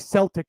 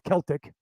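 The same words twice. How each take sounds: First: The word begins with a soft S sound. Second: The word begins with a hard K sound. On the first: This is how the Scots say it. "They say Celtic ... with the S's" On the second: This is how the Irish say it. "the hard C's"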